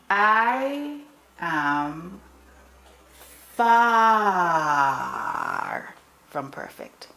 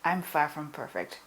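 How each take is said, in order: First: The word far gets strong emphasis. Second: The word far gets no special emphasis.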